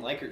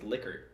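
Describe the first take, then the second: First: The first syllable sounds like 'like'. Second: The first syllable sounds like 'lick'. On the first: This is how most people say the name. The speaker calls it wrong. "everyone calls him Likert scales" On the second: This is how the name really goes. The speaker calls it right. "apparently his name is Lickert"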